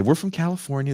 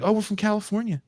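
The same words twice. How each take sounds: First: Put-on Scots faking a clumsy American accent, pitched high; "We're from California" pushed up high in a poor American accent; a Glasgow rapper's failed attempt at American; bad American accent. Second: High, breezy fake American accent; "we're from California" said high with a carefree fake American lilt; a Scot pretending to be Californian; bad American accent. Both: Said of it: "the worst American accents ever".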